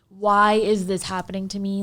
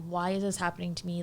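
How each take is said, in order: First: It sounds whiny and self-pitying. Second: It sounds calm and curious.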